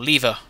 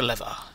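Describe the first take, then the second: First: The first vowel sounds like 'bee', British style. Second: The first vowel sounds like 'bed', not British.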